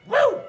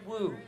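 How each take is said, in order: First: It sounds loud and genuinely excited. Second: It sounds flat and sarcastic.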